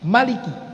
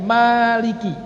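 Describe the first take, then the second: First: The first vowel is kept short. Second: The first vowel is held long. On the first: It means king. "Pendek bi fathil mimi" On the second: It means owner.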